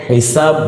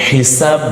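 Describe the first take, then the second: Both takes have the same delivery.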